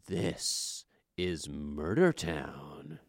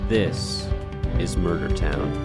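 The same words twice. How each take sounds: First: It is said with more energy and emphasis. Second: It is said plainly, with modest energy.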